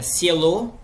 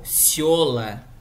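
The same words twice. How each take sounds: First: "cielo" stressed on its last syllable, LO; stress on final syllable. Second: "ciola" stressed on the yo sound, drawn out slowly; stress moved forward. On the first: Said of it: "muda completamente a sílaba tônica". ("cielo" com a tônica no final) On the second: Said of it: "Porque ficou a tônica ali em cima". ("ciola" com a tônica no "io") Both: Shown as a demonstration.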